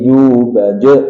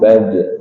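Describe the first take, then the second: First: The final echo is drawn out and exaggerated. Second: The final echo is short and moderate. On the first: The speaker calls it wrong. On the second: The speaker calls it right. "standar mawon"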